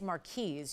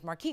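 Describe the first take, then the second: First: The word ends with an S sound. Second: The word ends without an S sound. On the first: The speaker calls it right. "proper pronunciation is Marquise. You do say the S" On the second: The speaker calls it wrong. "thinking it was Marquis cut"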